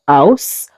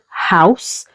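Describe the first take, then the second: First: The word starts without any h sound. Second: The word starts with a clear h sound. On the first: "we usually say house" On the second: "If we're meant to say a word begin with H like house"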